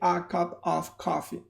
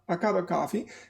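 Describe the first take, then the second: First: Every word is fully and carefully pronounced. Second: The small words are reduced to schwas, like cuppa. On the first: Nobody actually speaks like this. The speaker calls it wrong. "they will never say a cup of coffee" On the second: This is how people really speak. The speaker calls it right. "prepared for them to say a cup of, a cup of coffee"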